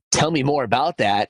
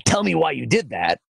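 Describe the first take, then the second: First: Curious, open ask; inquisitive voice. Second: Higher, pointed accusing ask; shaming voice. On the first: Coach contrasting kind and harsh questions, inquisitive. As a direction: invite them to share more, gently. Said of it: "inquisitive voice instead of a shaming voice". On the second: Coach contrasting kind and harsh questions, shaming. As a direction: demand an explanation, blaming. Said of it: "instead of a shaming voice". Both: Shown as a demonstration.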